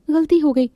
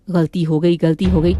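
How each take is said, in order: First: Higher, timid "गलती हो गई" as the maid; meek apology. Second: "गलती हो गई" repeated lower in a taunting mimic; mocking the maid. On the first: Acted. Maid Manjari apologizing to her mistress, timid and high. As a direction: say "गलती हो गई" small and pleading, pitched up. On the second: Mistress mocking the maid's excuse, lower taunting mimic. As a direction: parrot her "गलती हो गई" back with scorn. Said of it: "रोज का यही नाटक है तुम्हारा".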